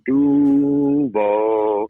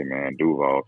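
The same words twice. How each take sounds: First: "Duval" called out loud and high; hometown shout. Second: Said in the usual way. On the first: Retold or imitated. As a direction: holler "Duval" like a hometown crowd chant. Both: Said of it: "if you hear somebody be like".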